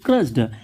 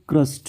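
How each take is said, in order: First: The word ends with a d sound. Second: The word ends with a t sound. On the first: The speaker calls it wrong. "हम पढ़ेंगे इसको क्रस्ड" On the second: The speaker calls it right. "रियल pronunciation होता है क्रस्ट"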